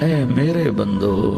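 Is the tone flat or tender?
tender. It is said in a warm, tender tone. The speaker calls it right.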